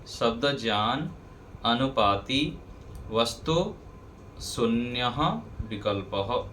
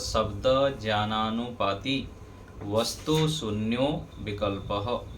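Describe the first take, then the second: First: The words are said separately without sound changes. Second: The words are joined together with sound changes. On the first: "अलग अलग बोलेंगे" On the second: "यदि संधि के साथ करेंगे"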